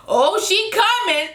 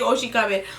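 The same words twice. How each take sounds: First: High, slow, giggling drawl; Keely's line, laughing and high; laughing imitation. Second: Said in the usual way. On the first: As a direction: stretch it out while cracking up. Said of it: "Keely was like". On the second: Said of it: "she kept saying".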